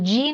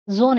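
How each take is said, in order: First: It starts with a J sound, like gene. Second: It starts with a soft zh sound, French style. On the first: "is a gene in English" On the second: "but in French it is zone"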